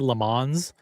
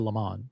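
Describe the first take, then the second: First: The final s is pronounced. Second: It has a plain anglicized pronunciation, no s. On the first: "I don't say the S. I don't say Le Mans" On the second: "I say Le Mans"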